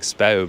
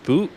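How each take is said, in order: First: The vowel sounds like 'ow'. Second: The vowel sounds like 'oo'. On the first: "It should be like Spou" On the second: "but I think it's Spoo"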